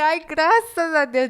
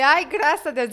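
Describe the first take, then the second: First: Slow, drawn-out cry of thanks, louder and higher; Ai, graças a Deus, stretched slowly in happy relief; joyful relief. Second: Ai, graças a Deus, said brightly relieved; relieved exclaim. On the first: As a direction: stretch out the thanks while jumping for joy. Jumping with friend in joy. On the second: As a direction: burst of relief, higher and louder. Relief after getting the studio. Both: Retold or imitated.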